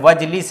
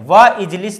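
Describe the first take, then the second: First: The initial i of ijlis is dropped, linked. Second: The initial i of ijlis is pronounced separately. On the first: The speaker calls it right. "वाव के बाद आया है तो यहाँ पे वजलिस है" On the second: The speaker calls it wrong. "वह इजलिस नहीं पढ़ेंगे"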